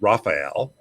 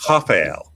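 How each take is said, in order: First: The name begins with an English R sound. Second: The name begins with an H-like breathy sound. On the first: The speaker calls it wrong. "us Americans would look at your name and think it was Raphael" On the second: The speaker calls it right. "it's actually Rafael"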